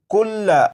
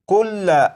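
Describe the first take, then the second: The two takes are said the same way.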